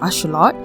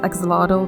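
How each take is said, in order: First: It is pronounced the Nahuatl way. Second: It is pronounced the usual English way. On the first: "the correct pronunciation for an axolotl in the Nahuatl language" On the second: "I am just going to pronounce it as axolotl because I'm so used to it"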